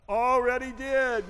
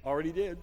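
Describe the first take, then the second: First: "Already did" drawn out, high and loud; emphatic repeat. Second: Said in the usual way. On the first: Real, not acted. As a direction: stretch "Already did" slowly and punch it up high.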